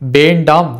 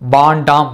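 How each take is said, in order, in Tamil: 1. சொல் முழு வடிவில் ஒலிக்கப்படுகிறது. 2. முதல் உயிரெழுத்து நீண்ட a ஆக மாறுகிறது. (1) "முறையாக ஒலிப்பு செய்வார்கள்" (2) "வேண்டாம் என்பதை வாண்டாம் என்றும்"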